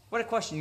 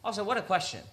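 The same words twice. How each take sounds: First: Higher, stress on "What"; "What" punched in disbelief; emphatic repeat. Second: Said in the usual way. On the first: Real, not acted. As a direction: repeat it, landing hard on "What".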